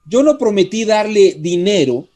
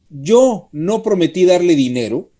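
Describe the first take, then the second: First: The stress falls on the word dinero. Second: The stress falls on the word yo. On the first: Something other than money may have been promised. "pudo haberle prometido dar otra cosa" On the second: Someone else may have promised the money. "cuando pone acento en el yo"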